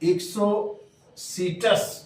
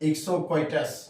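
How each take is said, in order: First: The middle part sounds like 'see', without 'kw'. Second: The middle part sounds like 'kwai', with 'kw'. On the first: The speaker calls it right. "इक्सोसीटस बोल रहे हैं हम लोग" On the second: The speaker calls it wrong. "बच्चे पढ़ लेते हैं इक्सोक्वाइटस"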